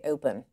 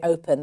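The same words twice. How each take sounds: First: It is said in a Delco accent. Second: It is said in a general American accent. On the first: "They'll say open" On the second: "They don't say open"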